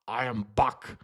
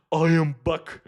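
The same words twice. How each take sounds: First: Put-on low German-accented action-robot voice; Arnold Schwarzenegger's Terminator. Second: Loud, badly faked Austrian action-robot voice; first botched go at a famous cyborg voice, punched out; Arnold Schwarzenegger's Terminator. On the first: Streamer retrying to prove they can do better, low Terminator impression. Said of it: "I can do a German accent in English". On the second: Streamer reading a chat comment aloud as the Terminator, loud bad impression. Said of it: "read that out in Arnold Schwarzenegger's Terminator voice".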